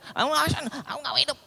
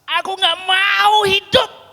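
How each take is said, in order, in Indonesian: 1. Marah, dan vokalnya kabur dan tidak jelas. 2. Marah, tapi vokalnya jelas. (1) "Nggak jelas jadinya" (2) "Ketika marah, lafal vokal harus tetap jelas"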